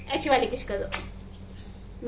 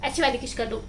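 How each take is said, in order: First: Whisper. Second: Said in the usual way. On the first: Real, not acted. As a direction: hush it, slowly and secretly, as if coaxing. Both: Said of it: "coaxing baby softly".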